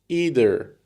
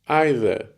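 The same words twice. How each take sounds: First: It is said the American way. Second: It is said the British way. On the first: "говорят американцы" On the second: "говорят британцы"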